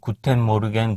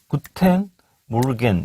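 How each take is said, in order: First: It is said flat, without any stress. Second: It is said with clear stressed syllables. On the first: The speaker calls it wrong. "악센트가 없이 그냥" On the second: The speaker calls it right. "이렇게 돼야 돼"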